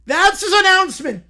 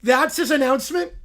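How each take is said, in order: First: Said in the usual way. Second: Incredulous question. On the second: Real, not acted.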